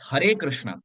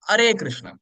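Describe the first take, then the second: First: The starting H sound is clearly pronounced. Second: The starting H sound is left out. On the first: It calls on Krishna by name. The speaker calls it right. "It's Hare Krishna" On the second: It sounds like calling Krishna an enemy. The speaker calls it wrong. "We skip the starting H. What do we say?"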